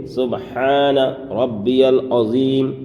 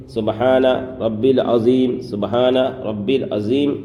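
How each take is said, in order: First: Slow سبحان ربی العظیم with every sound clear; سبحان ربی العظیم with a distinct ha and a clear ending; correct recitation. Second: سبحان ربی العظیم run together as سبحانر ربی لعظیم; the careless mumbled way, سبحان ربی العظیم slurred; سبحان ربی العظیم rushed with the letters blurred; wrong recitation. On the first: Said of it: "ہم کس طرح سے پڑھیں گے". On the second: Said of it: "یہ پڑھنا بالکل غلط ہے". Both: Shown as a demonstration.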